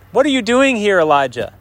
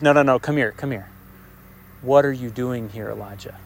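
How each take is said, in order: First: High-pitched, challenging question; emphatic, insistent query; pointed questioning. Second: Hushed, intimate divine question. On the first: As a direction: demand it, starting high and dropping. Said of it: "This double question". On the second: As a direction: draw him close and ask gently. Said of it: "I think it's an intimate way". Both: Acted.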